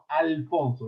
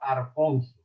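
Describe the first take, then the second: First: It is said with an l sound, standard Spanish. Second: It is said with an r sound, western Andalusian.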